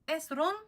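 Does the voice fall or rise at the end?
rise. The pitch rises at the end. It asks whether this is the person. "change the inflection upwards to make it into a question"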